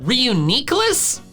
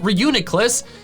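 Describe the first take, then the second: First: The middle syllable has an ee sound. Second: The middle syllable has no ee sound. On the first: "but Reuniclus? That doesn't make any sense" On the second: "I call it Reuniclus"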